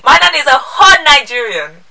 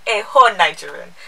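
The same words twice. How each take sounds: First: Loud and high, punching "whole"; emphatic. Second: Said in the usual way. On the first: Real, not acted. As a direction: hit "whole" hard and high.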